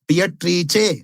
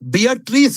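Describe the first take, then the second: First: The name ends in an Italian 'che' sound. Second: The name ends in an English 's' sound. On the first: The speaker calls it right. "ಬಿಯಟ್ರೀಚೆ ಅಂತ ಹೇಳಬೇಕು" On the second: The speaker calls it wrong. "ಬಿಯಟ್ರೀಸ್ ಅಂತ ಮಾಡ್ತಾರೆ"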